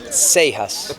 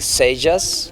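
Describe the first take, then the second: First: The J is said as the Spanish sound. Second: The J is said as the English sound. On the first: "In Spanish" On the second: "which is you pronounce it J in English"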